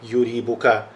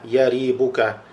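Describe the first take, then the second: First: The first syllable has a 'u' vowel. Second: The first syllable has an 'a' vowel. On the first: The speaker calls it wrong. "а не «юрибука»" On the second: The speaker calls it right. "более литературно и более является красноречивым в арабском языке употреблять это слово с фатхой"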